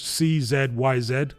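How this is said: Z is said the British way, as zed.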